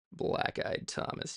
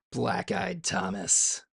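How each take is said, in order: First: Whispered repeat. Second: Drawn-out name. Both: Shown as a demonstration.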